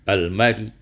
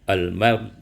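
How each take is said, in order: Both takes have the same delivery.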